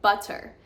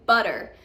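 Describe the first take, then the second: First: The middle consonant is a clear T sound. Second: The middle consonant sounds almost like a D. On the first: "with British English, they pronounce the T's in the middle of their words" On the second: "The T is almost pronounced as a D"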